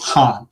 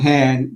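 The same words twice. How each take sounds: First: The surname has its original family pronunciation. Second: The surname has an Americanized pronunciation. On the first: This is the family's true form of the name. The speaker calls it right. "My last name is Han" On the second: This is the form people in the US use. The speaker calls it wrong. "that is really not technically the correct pronunciation"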